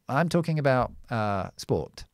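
The vowel in talking has very rounded lips. "British English, is with your lips very rounded"

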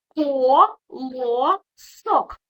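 The word is split with pauses between syllables. "Давай поділимо на склади"

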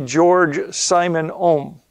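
The name is pronounced with English sounds.

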